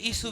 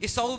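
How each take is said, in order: First: The name ends with a short 'soo' sound. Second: The name ends with a 'sa-oo' sound. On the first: "ईसू भी कहते हैं" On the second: "ईसाऊ right pronunciation है"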